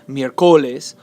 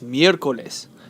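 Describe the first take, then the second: First: The stress falls on a later syllable. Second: The stress is on the first syllable. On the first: The speaker calls it wrong. "It's not" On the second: The speaker calls it right. "The stress is on the third to last syllable"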